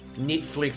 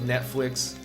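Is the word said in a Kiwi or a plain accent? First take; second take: Kiwi; plain. First: The word is said in a New Zealand accent. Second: The word is said in a plain accent.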